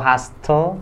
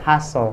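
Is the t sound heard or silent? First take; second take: heard; silent. First: The t sound is pronounced. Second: The t sound is silent. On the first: The speaker calls it wrong. "Ini bukan hustle" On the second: The speaker calls it right. "tapi dibacanya hustle. Karena T-nya di sana dihilangkan"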